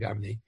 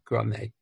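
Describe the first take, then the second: First: The word begins with the sounds 'gar'. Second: The word begins with the sounds 'gra'. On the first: The speaker calls it wrong. "they mispronounce it. They call it Garmi" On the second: The speaker calls it right. "they say the correct pronunciation is Grama. Fine"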